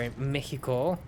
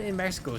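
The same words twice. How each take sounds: First: Mexico is pronounced with Spanish sounds. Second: Mexico is pronounced with English sounds. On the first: The speaker calls it right. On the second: The speaker calls it wrong.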